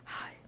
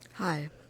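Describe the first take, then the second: First: It is whispered. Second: It is spoken aloud, not whispered.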